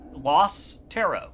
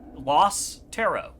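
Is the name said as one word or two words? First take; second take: two words; two words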